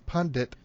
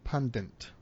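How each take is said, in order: First: The word has only one n sound. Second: An extra n sound is slipped into it. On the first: The speaker calls it right. "it's pundit" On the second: The speaker calls it wrong. "not pundit"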